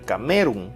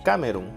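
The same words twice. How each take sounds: First: The stress is on the second syllable. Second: The stress is on the first syllable. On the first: "Si fuera en me" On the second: "Si fuera en K"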